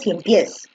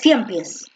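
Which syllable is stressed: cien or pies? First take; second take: pies; cien. First: The stress is on the last syllable. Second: The stress is on the first syllable. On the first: The speaker calls it right. "Tú dices cien pies" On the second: The speaker calls it wrong. "Tú no dices cien pies"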